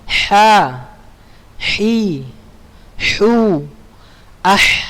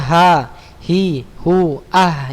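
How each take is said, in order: First: The h is a tight, raspy throat sound. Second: The h is a plain, light breath. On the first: The speaker calls it right. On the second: The speaker calls it wrong. "jangan disamakan dengan huruf H besar"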